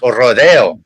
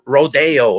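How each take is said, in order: First: It is said with Spanish-style pronunciation. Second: It is said with English-style pronunciation. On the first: The speaker calls it right. "like no, it's" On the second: The speaker calls it wrong. "they pronounce it like"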